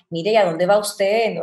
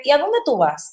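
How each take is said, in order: First: Lightly imitated Colombian or Venezuelan courtesy; gentle, courteous Colombian-style question; amable, colombiano o venezolano. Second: Higher, falling Dominican question. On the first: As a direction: ask politely, with a hint of Colombian or Venezuelan accent. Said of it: "como que son muy amables". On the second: Retold or imitated. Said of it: "aquí en República Dominicana somos más de".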